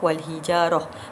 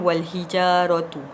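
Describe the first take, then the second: First: The word ends with a short 'ah' sound. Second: The word ends with a full 'atu' syllable. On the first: The reciter stops at this word. The speaker calls it right. "bila berhenti tanda waqaf" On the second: The reciter carries on without stopping. The speaker calls it wrong.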